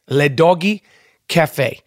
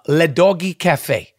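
First: Le Doggy Cafe said with a mock French accent. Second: Said in the usual way. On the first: Shown as a demonstration. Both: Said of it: "with a French accent".

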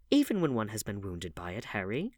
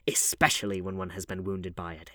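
First: "Even when one has been wounded by it" as a question; asking after a pause. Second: "Especially" hit louder, then level; answering. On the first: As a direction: put "wounded by it" as a tentative question. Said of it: "asked the Duchess, after a pause". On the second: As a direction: assert "Especially" firmly as a reply. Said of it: "answered Lord Henry". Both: A narrator's reading.

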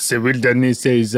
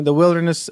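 First: Put-on echoing a British accent on "wilderness"; slipping into imitation British; copied British accent. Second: Said in the usual way. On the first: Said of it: "I just heard your accent, and I wanna". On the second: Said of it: "sorry, I just heard your accent".

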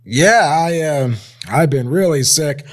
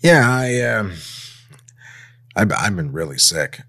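First: Higher, whiny, near-crying sick voice; fake sick voice. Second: Said in the usual way. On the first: Shown as a demonstration. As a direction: play up being ill with a whimper. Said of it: "I'm playing it wrong. Let's do it again". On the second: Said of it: "I'm playing it wrong".

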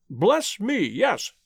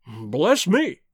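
First: Mild agreement, falling away on "yes"; acquiescing. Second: Mildly annoyed exclamation; shade of annoyance. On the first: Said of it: "acquiesced Mister Philander". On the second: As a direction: let a touch of irritation show. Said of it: "a shade of annoyance in his tone". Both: A narrator's reading.

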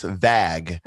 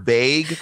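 First: "vag" with a short "a" as in bag; overcorrected vowel. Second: "vague" with a long "ay"; long vowel. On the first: Guest showing friend's overcorrection, "vag" with short "a". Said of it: "was actually pronounced vag". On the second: Guest showing the real word, "vague" with a long "ay". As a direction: say "vague" to rhyme with plague. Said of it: "they thought the word vague". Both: Shown as a demonstration.

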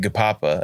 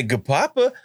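First: Said in the usual way. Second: "Gapapa" lifted with a put-on inflection; different inflection. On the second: Lily insists to the parent, pointed inflection on "Gapapa". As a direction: correct them with a lilted "Gapapa". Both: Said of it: "putting a different inflection on it".

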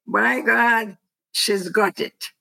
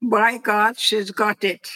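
First: Put-on mother's line redone in a stronger English accent. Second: Put-on a light touch of a British accent on the mother's phrase; lightly imitated British accent, mostly in the speaker's own voice. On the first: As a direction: repeat mother's phrase in a clearer English accent, first words pitched up. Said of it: "With an English accent, yes". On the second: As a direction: quote mother in a hint of British English. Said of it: "my mother would say it with a British accent".

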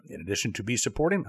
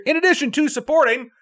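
First: Lower, softer, faltering stumble; flubbed line. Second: Much higher, deliberate retake of the phrase; emphatic self-correction. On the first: Host tripping over the sign-off pitch, flubbed line. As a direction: lose the line and drop the volume. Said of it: "I don't know what's going on". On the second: Host fixing a stumble in the sign-off, emphatic self-correction. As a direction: restart the flubbed phrase, pitched way up. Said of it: "I don't know why English is my second language". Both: Real, not acted.

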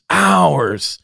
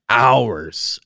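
First: Hours repeated much higher and louder; emphatic repeat. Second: Said in the usual way. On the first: Real, not acted. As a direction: hit the second hours high and hard, stunned. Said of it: "Like, hours".

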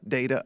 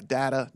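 First: DATA as DAY-tuh; long-a data. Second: DATA as DAT-uh; short-a data. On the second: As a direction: say data with the vowel of cat. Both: Shown as a demonstration. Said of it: "I'm okay with either one".

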